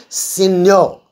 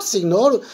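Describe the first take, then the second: First: "signor" as seen-yo, silent g; correct signor pronunciation. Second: "signor" said wrongly as sig-nor, hard g; mispronounced signor. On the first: Teacher modelling Italian word for students, "signor" said seen-yo with no hard g. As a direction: blend the gn of "signor" into a ny sound. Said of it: "You have to pronounce that one". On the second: Teacher warning students off the spelt-out sig-nor for "signor", g pronounced. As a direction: sound the g in "signor". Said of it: "That is not signor". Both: Shown as a demonstration.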